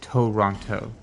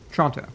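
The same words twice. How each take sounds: First: The name is said in full, every sound pronounced. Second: The name is shortened, with sounds dropped. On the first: This is how it is spelled. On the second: This is how locals say it. "it's just Toronto"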